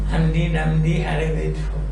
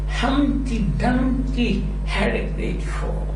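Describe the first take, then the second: First: The pitch stays level through the sentence. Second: The pitch moves up and down through the sentence. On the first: The speaker calls it wrong. "Not that" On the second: The speaker calls it right. "the level of your voice goes up and down"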